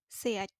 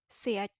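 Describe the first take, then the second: Both takes have the same delivery.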